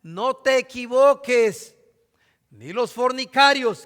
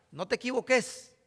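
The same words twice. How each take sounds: First: "No te equivoques" slow and louder, weighty pulpit reading; solemn scripture reading. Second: "no te equivoques" in a light Honduran catracho accent. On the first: Acted. Preacher warning his congregation, slow louder scripture reading. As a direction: declaim "No te equivoques" slowly, every word heavy. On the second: Shown as a demonstration. Preacher translating scripture into Honduran speech, catracho accent. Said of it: "Así con acento, ¿verdad?".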